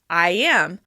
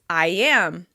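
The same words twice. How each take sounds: First: A y sound links the two words. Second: A y sound links the two words.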